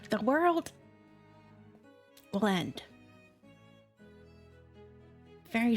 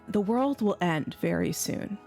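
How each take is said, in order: First: It is said in a put-on old lady voice. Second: It is said in her own normal voice.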